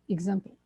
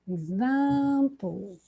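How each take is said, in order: First: The vowels are short and clipped. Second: The vowels are drawn out and long. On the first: The speaker calls it wrong. "I didn't stretch the vowel, and this is not good" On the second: The speaker calls it right. "I stretch the vowels"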